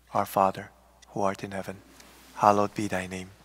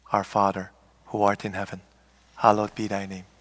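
Both takes have the same delivery.

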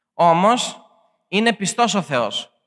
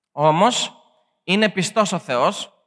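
The two takes are said the same way.

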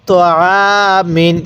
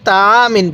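First: The first syllable sounds like a heavy 'to'. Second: The first syllable sounds like a light 'ta'. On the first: The speaker calls it right. "তাহলে কিভাবে পড়ব? তো আমিন।" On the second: The speaker calls it wrong. "অনেকে তা মিন পড়ে, ঠিক আছে, ত জবর তা পড়ে। যদি ত জবর তা পড়ি তাহলে পড়াটা সহি শুদ্ধ হবে না।"

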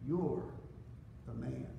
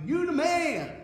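First: It is said calmly and solemnly. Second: It is shouted excitedly.

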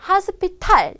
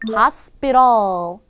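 First: The p after s is aspirated. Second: The p after s is tense, unaspirated. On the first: The speaker calls it wrong. "이게 아니라" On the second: The speaker calls it right. "SP는 스뿌 발음되고요"

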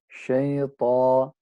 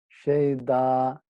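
First: The consonant is heavy and thick. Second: The consonant is light and thin. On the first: The speaker calls it right. "ta harfi kalın" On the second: The speaker calls it wrong. "da ifadesi yanlıştır"

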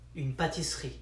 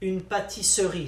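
First: The middle E is silent and dropped. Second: The middle E is pronounced as a syllable. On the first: The speaker calls it right. "Nobody pronounces the letter E" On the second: The speaker calls it wrong. "You will never hear someone say"

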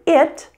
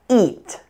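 First: The vowel is a short 'ih' sound. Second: The vowel is a long 'ee' sound. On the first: The speaker calls it right. "the short I sound" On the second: The speaker calls it wrong. "you pronounce the I in the word it as eat"

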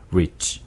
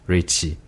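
First: The word ends cleanly on the final consonant. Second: An extra vowel sound follows the final consonant. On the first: The speaker calls it right. "없을 때는" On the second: The speaker calls it wrong. "이게 이 모음이 들어가는 거고"

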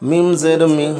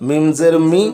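The two takes are said the same way.

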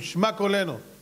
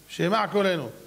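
First: The first two consonants are run together. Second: A short vowel follows the first consonant. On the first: The speaker calls it wrong. "מה זה שמה? אין דבר כזה" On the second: The speaker calls it right. "שווה בראש מילה תמיד זה שווה נע"

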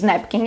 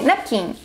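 First: The word is said with a plain English accent. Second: The word is said with a French accent. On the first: This is simply the ordinary English word. "Eu simplesmente falo inglês" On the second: This is how French speakers in Quebec say it. "E eles falam assim, ... tem um sotaque francês no meio"

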